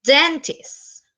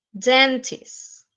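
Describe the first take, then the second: First: DENtist, first syllable raised; stress on first syllable. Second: Said in the usual way. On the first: Shown as a demonstration. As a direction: lift the DEN of Dentist. (acento en DEN de Dentist) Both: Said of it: "También en la primera".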